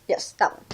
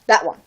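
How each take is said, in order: First: Whispered confirmation; whispered aside to cashier. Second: Said in the usual way. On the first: Retold or imitated. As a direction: breathe it without voice. Pointing out cigarettes to cashier.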